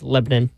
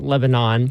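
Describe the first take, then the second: First: The name is said the local way. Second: The name is said the outsider way. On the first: The speaker calls it right. "It's Lebanon" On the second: The speaker calls it wrong. "Not Lebanon"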